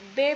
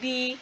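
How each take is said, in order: First: The letter is named in the Indonesian way. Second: The letter is named in a foreign way. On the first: The speaker calls it right. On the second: The speaker calls it wrong.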